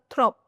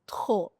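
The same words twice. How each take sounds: First: The final P sound is pronounced. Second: The final P sound is silent. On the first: The speaker calls it wrong. "it's not trop" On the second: The speaker calls it right. "it's trop"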